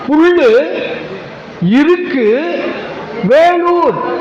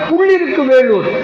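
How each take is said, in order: First: The name is said slowly, split into words. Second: The name is said quickly, run together. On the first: The parts of the name show their meaning. The speaker calls it right. "அப்படி படிக்கணும்" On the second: The meaning of the name is lost. The speaker calls it wrong. "நம்ம வேகமா சொன்னதுனால"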